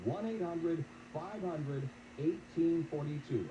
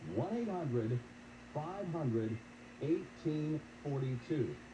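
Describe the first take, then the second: First: The number is read at a normal pace. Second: The number is read slowly and deliberately.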